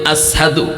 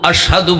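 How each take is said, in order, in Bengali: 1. মাঝের ব্যঞ্জনটি 's' ধ্বনি। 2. মাঝের ব্যঞ্জনটি 'sh' ধ্বনি। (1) "সিন বলতেন" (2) "আশহাদু বলতে পারতেন না"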